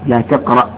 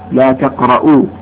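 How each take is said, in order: First: The verb ends with no vowel. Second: The verb ends with a u vowel. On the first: It is a prohibition. "جاءت روايته بالجزم لا تقرأ التسكين" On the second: It states that it is not allowed at all. "وجاء أيضا بالنفي"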